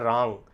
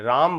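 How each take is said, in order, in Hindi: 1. शब्द खुला रहकर खत्म होता है, आवाज़ नाक से निकलती है। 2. शब्द का अंत होंठ बंद करके होता है। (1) "आपका ओठ खुला रहेगा, मुंह खुला रहेगा, आवाज़ आपके नाक से निकलेगी" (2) "आप ओठ बंद कर लेते हैं, राम बोल देते हैं"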